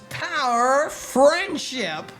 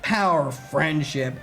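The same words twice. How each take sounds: First: It is said in a bubbly, cheerful way. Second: It is said in a plain, flat way. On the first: The speaker calls it right. "I do not think I'm capable of speaking with that many rainbows" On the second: The speaker calls it wrong. "It's not"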